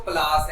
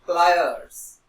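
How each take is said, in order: First: प्लास said as plass, no r and no y-sound; teacher shows the mistaken प्लास as plass; wrong pronunciation. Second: Teacher models the correct प्लायर्स; correct pronunciation. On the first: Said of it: "पर है ये प्लास नहीं है word". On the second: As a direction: model प्लायर्स clearly and loudly, ply-erz. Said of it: "इसको बोला कैसे जाता है?". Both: Shown as a demonstration.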